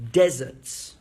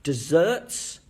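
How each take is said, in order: First: "deserts" loud on "DEZ", then falling; first-syllable stress. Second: "Desserts" rising on a stressed "-serts"; second-syllable stress. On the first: Teacher sets two words side by side, "deserts" stressed on "DEZ". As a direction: hit the first syllable of "deserts" and drop away. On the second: Teacher sets two words side by side, "Desserts" stressed on "-serts". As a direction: lift and punch the last syllable of "Desserts". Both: Shown as a demonstration. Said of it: "say the two words together".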